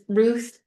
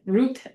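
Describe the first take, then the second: First: The name is said with an anglicized pronunciation. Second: The name is said with a Hebrew-style pronunciation. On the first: The speaker calls it right. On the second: The speaker calls it wrong. "No one would like"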